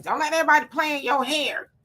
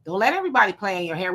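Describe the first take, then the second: First: Lightly acted warning, pitched up; childhood warning. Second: Said in the usual way. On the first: Repeating what kids were told about their hair, mock warning. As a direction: imitate an elder cautioning a child, higher voice. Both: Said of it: "We were told that as, um, kids".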